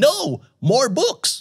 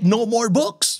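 First: There is a pause right after no. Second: It runs on with no pause after no. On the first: More books should be brought. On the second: No more books are wanted.

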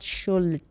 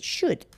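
First: The word is said with an L sound. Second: The word is said without an L sound. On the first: The speaker calls it wrong. "not should" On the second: The speaker calls it right. "L is not pronounced. So L is silent"

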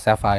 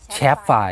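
First: The word begins with an 's' sound. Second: The word begins with a 'ch' sound. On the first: The speaker calls it right. "เรียกสั้นๆก็อาจจะเรียกกันว่าแซฟไฟร์" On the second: The speaker calls it wrong. "แต่ไม่ใช่แชฟไฟร์"

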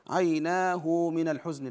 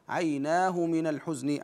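First: The h sound is followed by a lengthened vowel. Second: The h sound is followed by no lengthened vowel. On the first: The speaker calls it wrong. "لا نقول" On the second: The speaker calls it right. "عدم الصلة"

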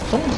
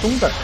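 First: The word ends plainly without an r-colored sound. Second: The word ends with an r-colored erhua sound. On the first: The speaker calls it wrong. "松子不行" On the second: The speaker calls it right. "那不儿化音吗？"

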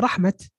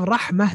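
First: The word ends with a t sound. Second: The word ends with a soft h sound. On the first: The speaker calls it wrong. "they say rahmat" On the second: The speaker calls it right. "Instead of rahmah"

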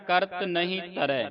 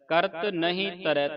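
First: The last word ends in an ai vowel. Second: The same.

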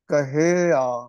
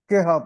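First: The word is said in three syllables, ka-hi-aa. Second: The word is said in two syllables, ki-haa. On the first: The speaker calls it right. "ਇਹ ਬਣੇਗਾ ਕਹਿਆ" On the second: The speaker calls it wrong. "ਕਹਿਆ ਨੂੰ ਵੀ ਬਹੁਤ ਸਾਰੇ ਕਿਹਾ ਪੜ ਜਾਂਦੇ ਨੇ"

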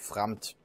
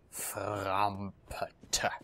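First: The name is said smoothly, sounds run together. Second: The name is said with every sound articulated separately.

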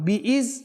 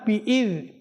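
First: The consonant is a buzzing z sound. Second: The consonant is a soft th-like sound. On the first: The speaker calls it wrong. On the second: The speaker calls it right.

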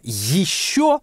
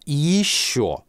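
First: The first sound is tense and hissy. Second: The first sound is relaxed and smooth. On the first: "более твердо" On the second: "более мягко"

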